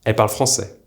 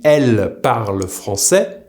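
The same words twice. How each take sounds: First: 'elles parlent français' with elles reduced to 'è'; spoken short form. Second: 'elles parlent français' with a clear L in elles; careful written form. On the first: Teacher showing learners the spoken elles parlent français, L dropped. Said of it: "it will be pronounced". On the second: Teacher giving the group of women's written elles parlent français, carefully articulated. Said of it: "just like the singular again". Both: Shown as a demonstration.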